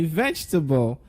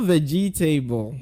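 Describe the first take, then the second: First: The second syllable is dropped. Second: All four syllables are pronounced. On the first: The speaker calls it right. "Please say vegetable" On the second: The speaker calls it wrong. "Not vegetable, like we used to saying"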